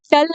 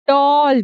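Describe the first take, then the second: First: टल with a short 'uh' vowel; wrong pronunciation. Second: टॉल with a long rounded 'aw'; correct pronunciation. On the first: Teacher shows learners what she is not saying, wrong pronunciation. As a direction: cut the vowel short in टल, like "tull". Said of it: "टल नहीं बोल रही". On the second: Teacher shows learners the 'aw' sound, correct pronunciation. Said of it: "टॉल बोल रही हूँ". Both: Shown as a demonstration.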